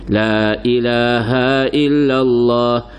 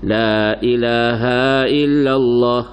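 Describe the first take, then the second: No difference in how they are said.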